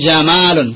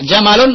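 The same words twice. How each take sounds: First: The vowel is held long. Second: The vowel is held short. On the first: "Pendek apa panjang Pak?" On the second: "Pendek apa panjang Pak?"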